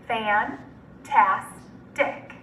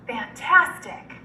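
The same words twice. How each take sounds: First: Fantastic in three slow, separate syllables. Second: Said in the usual way. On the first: Shown as a demonstration. Teacher breaking Fantastic up for students, syllable by syllable. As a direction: pause between fan, tas and tic in Fantastic. Syllable blending drill, word broken up.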